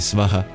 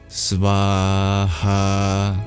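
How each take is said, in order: First: The a vowels are kept short. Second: The a vowels are held long. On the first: The speaker calls it wrong. "Not merely svaha" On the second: The speaker calls it right. "the A's are double length"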